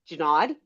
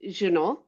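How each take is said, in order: First: The name is said in an American way. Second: The name is said in a non-American way. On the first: This is how most people say it. The speaker calls it wrong. "everybody says Junod because Americans" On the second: This is how the name really goes. The speaker calls it right. "my last name is Junot"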